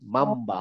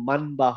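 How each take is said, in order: First: The nasal before ba is pronounced as m. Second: The nasal before ba is pronounced as n. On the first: The speaker calls it right. "মাম বা হবে" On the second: The speaker calls it wrong. "মান মান বা হবে না"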